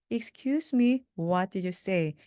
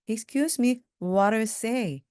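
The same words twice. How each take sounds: First: Said in the usual way. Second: "what did you say" run together, "what did" linked as "wharra"; quick linked speech. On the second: Shown as a demonstration. Teacher shows learners the fast version, quick and linked. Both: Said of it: "이걸 빨리 하면요".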